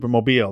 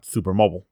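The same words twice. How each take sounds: First: The ending sounds like the ordinary word 'mobile'. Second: The ending sounds like the gas brand 'Mobil'. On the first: The speaker calls it right. "I definitely pronounce it a Supermobile" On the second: The speaker calls it wrong. "It is not a gas station"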